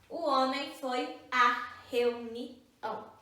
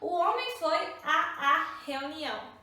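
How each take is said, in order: First: The vowel before reunião is said once. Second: The vowel before reunião is said twice. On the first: The speaker calls it right. "eu vou usar só uma vogal" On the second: The speaker calls it wrong. "Como eu vou pronunciar duas palavras ao mesmo tempo?"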